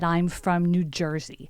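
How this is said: It is said in a put-on New Jersey accent.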